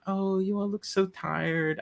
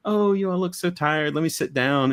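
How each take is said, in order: First: Lightly voiced kind old lady, higher; sweet granny. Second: Put-on no Scottish accent. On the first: A granny greeting tired travellers, lightly voiced and higher. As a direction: gently fuss over tired guests. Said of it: "I can't do a Scottish accent". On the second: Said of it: "I can't do a Scottish accent, so I won't even try".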